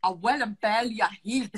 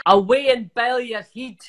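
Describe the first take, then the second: First: 1 faltering Scottish accent. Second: 1 Scottish accent. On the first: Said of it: "Don't wanna do a Scottish accent". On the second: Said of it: "give me a Scottish thing to say". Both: Shown as a demonstration.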